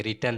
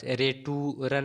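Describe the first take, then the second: First: रिटर्न said "ri-turn", two syllables; correct pronunciation. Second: रेटूरन read as spelt, "ray-too-ran"; wrong pronunciation. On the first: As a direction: say रिटर्न with a short "ri", then "turn". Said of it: "पढ़ेंगे". (सही उच्चारण: रिटर्न, दो हिस्सों में) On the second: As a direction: misread रेटूरन in three syllables with a long "too". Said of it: "नहीं पढ़ेंगे". (गलत उच्चारण: रेटूरन, लंबे "टू" के साथ) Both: Shown as a demonstration.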